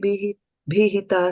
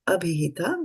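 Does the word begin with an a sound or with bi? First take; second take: bi; a sound. First: The first a is dropped; it starts with bi. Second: The word starts with an a vowel. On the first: The first vowel merges with the word before it. "instead of abhihita, it is" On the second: This is the full form of the word. "the word was abhihita"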